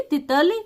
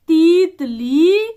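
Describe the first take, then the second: First: Said in the usual way. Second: तीतली with the first ई stretched long and louder; wrong long ee. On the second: Shown as a demonstration. Teacher showing the wrong spelling option, long stretched ई. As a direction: drag out the ई in तीतली. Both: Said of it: "सही शब्द पर घेरा लगाओ".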